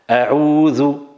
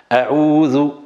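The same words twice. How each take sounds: Both takes have the same delivery.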